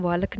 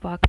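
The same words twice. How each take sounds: First: "वालक" with a clear l, waa-lak; L sounded. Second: Said in the usual way. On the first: Shown as a demonstration. Teacher showing learners the wrong walk, l sounded in "वालक". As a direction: say "वालक", putting the silent l in. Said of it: "हम वालक नहीं बोलते हैं". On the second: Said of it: "एल silent".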